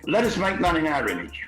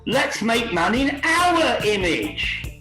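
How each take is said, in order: First: It is said in a plain, formal reading tone. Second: It is said as a casual, eager suggestion. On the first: It is a solemn declaration. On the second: One of a group is offhandedly proposing an idea.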